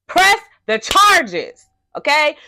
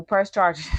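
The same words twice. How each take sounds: First: High, loud, slow laughing drawl; hammed-up emphasis on "Press the charges, okay?"; mock emphatic, laughing. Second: Said in the usual way. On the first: Shown as a demonstration. Repeats her advice, mocking emphasis.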